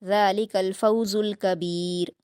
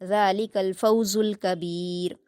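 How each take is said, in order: The two takes are said the same way.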